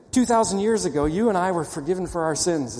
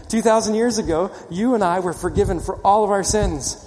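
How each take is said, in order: First: Said in the usual way. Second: Higher and louder, pressing the point home; louder emphatic repeat. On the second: Shown as a demonstration. Preacher repeating to the congregation, louder and fervent. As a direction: say it again with full force so they answer amen. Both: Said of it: "I have to say it again".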